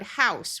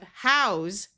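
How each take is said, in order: First: It ends with a hissing S sound. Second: It ends with a buzzing Z sound. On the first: It is a noun meaning a building. "with the unvoiced s sound" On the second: It is a verb meaning to provide shelter. "house with the z sound"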